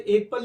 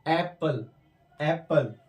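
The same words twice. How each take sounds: First: एप्पल starting with a close 'ay'; closed first vowel in एप्पल; wrong pronunciation. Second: एप्पल starting with open 'a' as in cat; wide open first vowel in एप्पल; correct pronunciation. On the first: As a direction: misread एप्पल as 'ayk-pal'. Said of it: "इसे एप्पल नहीं पढ़ना है". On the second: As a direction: say एप्पल as English 'apple'. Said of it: "इसे पढ़ना है एप्पल". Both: Shown as a demonstration.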